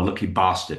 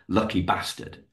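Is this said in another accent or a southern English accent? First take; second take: southern English; other accent. First: It is said in a southern English accent. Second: It is said in a non-southern English accent.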